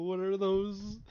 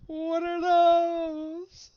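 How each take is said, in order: First: Said in the usual way. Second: High, slow, alarmed; shocked cry. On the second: Real, not acted. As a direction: cry out in disbelief. Sudden panic at strange cards.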